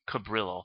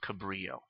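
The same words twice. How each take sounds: First: The word is said with a non-Spanish pronunciation. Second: The word is said with a Spanish pronunciation. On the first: "but maybe it's pronounced Cabrillo" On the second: "I'm going to stick with Cabrillo"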